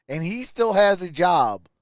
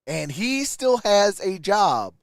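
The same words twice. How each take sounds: The two takes are said the same way.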